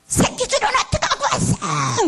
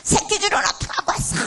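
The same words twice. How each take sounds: First: Much higher and louder, a furious demand; mother yelling at father, high and loud; mother's angry shout. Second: Much higher, breathy and shaking; shaking with anger right under his chin; mother trembling as she confronts father; trembling demand. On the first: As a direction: shout at the husband in a rage. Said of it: "이러더라고요". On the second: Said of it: "떨면서". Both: Retold or imitated.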